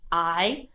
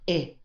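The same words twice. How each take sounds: First: The vowel is a long "eye" sound. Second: The vowel is a short "ih" sound. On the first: The speaker calls it right. "I said I with, with a long I sound" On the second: The speaker calls it wrong. "not I"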